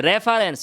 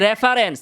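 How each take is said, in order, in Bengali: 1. শব্দটি r ধ্বনি দিয়ে শুরু হয়। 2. শব্দটি r ধ্বনি দিয়ে শুরু হয়।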